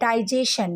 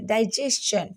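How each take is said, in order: First: The ending is said without a ch sound. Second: The ending is said with a ch sound. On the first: The speaker calls it wrong. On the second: The speaker calls it right.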